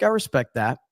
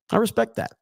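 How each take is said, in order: First: Said in the usual way. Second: Respect lifted high; higher, mock-earnest. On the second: Shown as a demonstration. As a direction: ripetere respect più acuto, con finta serietà.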